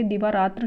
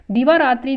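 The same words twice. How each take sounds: First: दिवारात्र ending in "tra"; correct form. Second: दिवारात्रि ending in "tri"; wrong form. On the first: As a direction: say दिवारात्र with no final i. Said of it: "शुद्ध है". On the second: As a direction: say दिवारात्रि loudly with a final i. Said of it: "अशुद्ध है". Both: Shown as a demonstration.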